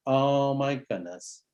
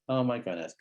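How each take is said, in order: First: Slow sympathetic sigh. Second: A quiet, falling oh my goodness; softer sympathetic murmur. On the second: Therapist softening toward the hurt kid, quietly. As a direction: let oh my goodness drop quietly. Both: Shown as a demonstration. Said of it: "ready for a bit of vulnerability".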